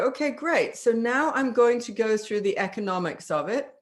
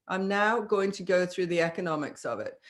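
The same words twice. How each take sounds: First: Upbeat transition. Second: Flat, matter-of-fact announcement; dry, even delivery of the money talk; neutral businesslike statement. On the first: Shown as a demonstration. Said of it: "And you go". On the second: Retold or imitated. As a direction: state it without selling. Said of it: "that's exactly how he says it".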